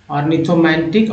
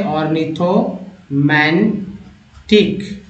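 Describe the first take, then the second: First: Said in the usual way. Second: Slow spelled-out. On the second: Shown as a demonstration. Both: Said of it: "next है ऑर्निथोमैंटिक".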